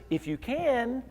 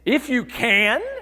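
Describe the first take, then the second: First: It sounds like a plain, simple question. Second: It sounds like an astonished, exclaiming question.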